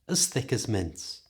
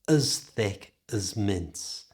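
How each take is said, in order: First: The phrase is said at normal conversational speed. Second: The phrase is said slowly and carefully.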